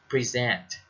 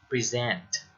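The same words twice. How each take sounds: No difference in how they are said.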